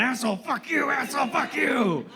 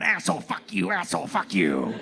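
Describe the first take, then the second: First: Higher, strained mock rant of a crazy man; deranged man ranting. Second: Lightly voiced ranting stranger; a hint of a deranged man cursing. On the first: Crazy man cursing right in his face, hammed-up rant. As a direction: ham up the street lunatic cursing. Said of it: "walked right up to me going". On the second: Street stranger cursing at passersby, mock rant. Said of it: "a clearly deranged man came around the corner going".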